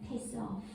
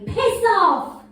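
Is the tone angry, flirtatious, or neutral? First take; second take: flirtatious; angry. First: It is said in a flirtatious tone. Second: It is said in an angry tone.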